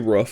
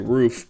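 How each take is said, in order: First: The vowel is short, rhyming with stuff. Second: The vowel is long, rhyming with proof. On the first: This is the regional way he is mocked for. The speaker calls it wrong. "I don't say rough" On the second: This is how he claims he actually says it. The speaker calls it right. "I say roof"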